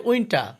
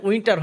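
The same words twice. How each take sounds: First: উইন্টার ending on an open "ta", no R; silent final R. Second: উইন্টার with the final R sounded; final R pronounced. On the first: Teacher correcting learners, উইন্টার said as "winta". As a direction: drop the last R of উইন্টার. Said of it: "এটা হবে উইন্টার". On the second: Teacher showing learners what to avoid, উইন্টার with sounded R. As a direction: end উইন্টার on an audible R. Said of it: "এখানে উইন্টার হবে না". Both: Shown as a demonstration.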